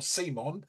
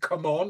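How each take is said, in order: First: The name sounds like the name 'Simon'. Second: The name sounds like the words 'come on'. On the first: The speaker calls it right. "It's Simon. I was right" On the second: The speaker calls it wrong. "whether you pronounce it come on"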